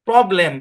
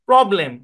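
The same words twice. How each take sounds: No difference in how they are said.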